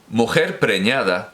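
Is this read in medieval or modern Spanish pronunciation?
modern. It uses modern Spanish pronunciation.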